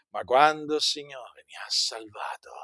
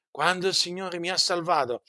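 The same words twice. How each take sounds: First: Voiceless, intimate whisper. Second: Said in the usual way. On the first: Shown as a demonstration. Preacher telling the congregation of his salvation in a whisper. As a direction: breathe it like a secret. Whispers, then repeats aloud.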